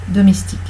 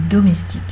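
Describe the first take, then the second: No difference in how they are said.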